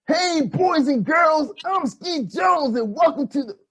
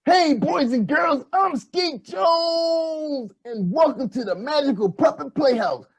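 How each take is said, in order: First: Put-on kids show host voice. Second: Put-on slow, stretched kids TV host; drawn out with a shout on Skeet Jones; kids show host voice. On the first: Puppet host intro, first take. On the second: Puppet host intro, retake.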